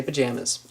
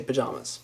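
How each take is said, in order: First: "pajamas" with a JAM vowel; other people's pronunciation. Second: Said in the usual way. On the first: Shown as a demonstration. Showing how some people say it, JAM pronunciation. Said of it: "Some people say pajamas". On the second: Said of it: "I say pajamas".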